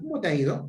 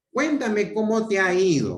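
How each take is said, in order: First: "¿cómo te ha ido?" as a direct question rising at the end; question tune. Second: Said in the usual way. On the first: Shown as a demonstration. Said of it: "si abre signo de interrogación". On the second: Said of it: "no puede ser".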